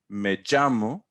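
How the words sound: The double L has a Caribbean pronunciation. The speaker is from the Caribbean. "you're from the Caribbean, probably Puerto Rico"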